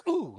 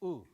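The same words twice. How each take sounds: First: "ooh" straight off the K, no pause, louder; K and ooh together. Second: Popped K, brief pause, then "Ooh"; separated K and ooh. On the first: Teacher showing what not to do, "ooh" all together. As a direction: run the K right into "ooh". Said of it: "You notice we're not going". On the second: Teacher showing the pause, K and "Ooh" separated. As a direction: hold back the "Ooh" after the K burst. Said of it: "put the ooh in a little bit later". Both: Shown as a demonstration.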